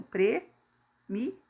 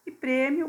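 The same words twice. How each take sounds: First: Prêmio stretched slowly, syllable by syllable, rising at the end; drawn out by syllables. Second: Said in the usual way. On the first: Shown as a demonstration. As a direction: pull prêmio apart into its syllables for the class. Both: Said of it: "ficaria, então".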